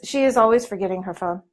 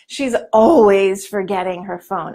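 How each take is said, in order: First: It is said in a flat, neutral tone. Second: It is said in an annoyed, exasperated tone. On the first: It simply reports a habit. The speaker calls it wrong. "We don't say" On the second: The habit is irritating. The speaker calls it right. "it's more like, oh, oh, so annoying"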